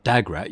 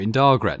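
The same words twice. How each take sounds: First: "Dagrat" said without the first R, DA-grat; mispronounced name. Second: "Dargrat" with the R sounded, DAR-grat; correct pronunciation. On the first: Manager misnames the city, "Dagrat" missing its R. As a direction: drop the R in "Dagrat". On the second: Player corrects the manager, "Dargrat" with the R. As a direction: say "Dargrat" clearly with both Rs. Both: Shown as a demonstration. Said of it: "You missed an R".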